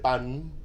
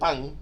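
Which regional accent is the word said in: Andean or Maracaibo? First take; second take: Andean; Maracaibo. First: It is said in an Andean Venezuelan accent. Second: It is said in a Maracaibo Venezuelan accent. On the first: "un andino que dice pan" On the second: "un maracucho que dice pan"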